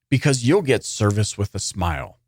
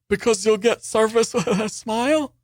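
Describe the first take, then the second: First: It is said plainly, as a straight quotation. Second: It is said hesitantly, with a nervous chuckle. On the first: "this quote" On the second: "nervous little chuckle"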